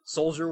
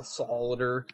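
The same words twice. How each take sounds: First: Said in the usual way. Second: SOLIDER said in three syllables, with an extra vowel; "solider", sol-i-der instead of sol-jer; mispronounced soldier. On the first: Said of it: "soldier was the worst word". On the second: Shown as a demonstration. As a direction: stumble on soldier so it comes out "solider". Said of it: "I always, it, like".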